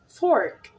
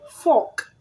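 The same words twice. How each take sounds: First: The vowel is pulled in by the R. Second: The vowel is plain, without R coloring. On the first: The speaker calls it right. "you say" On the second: The speaker calls it wrong. "Instead of saying"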